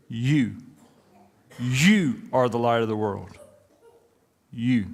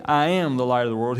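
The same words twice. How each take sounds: First: "You" set apart by pauses, slow and pointed; single out "You" each time, slow and deliberate; stress on YOU. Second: "I am" with the weight on "am", rest even; wrong version, stress on AM. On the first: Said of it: "he said". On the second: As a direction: lean lightly on "am", not on "I". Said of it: "And he doesn't say". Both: Shown as a demonstration.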